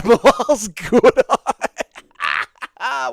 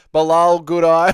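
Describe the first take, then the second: First: Slow, high, laughing stretch of the name; laughing drawl. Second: Said in the usual way. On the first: Acted. Streamer repeating a chatter's name as a joke, drawn out laughing. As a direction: savour the pun through a laugh.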